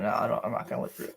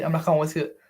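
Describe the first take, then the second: First: Quick, breathy whisper of a refusal. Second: Said in the usual way. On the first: Real, not acted. Streamer refusing to chat, in a fast whisper. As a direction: hiss the refusal under your breath.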